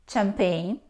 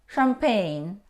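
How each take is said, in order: First: It begins with a 'ch' sound as in chair. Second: It begins with an 'sh' sound. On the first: The speaker calls it wrong. "No. Though we see the combination C and H, we don't pronounce ch" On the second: The speaker calls it right. "We pronounce sh"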